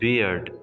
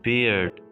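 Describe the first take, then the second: No difference in how they are said.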